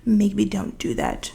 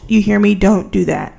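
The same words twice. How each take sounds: First: Said in the usual way. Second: Loud, mock-stern warning; close to the mic. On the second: Vlogger warning college students off scraping by, loud up close. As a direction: lean into the mic and warn firmly. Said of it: "I got really close to the mic".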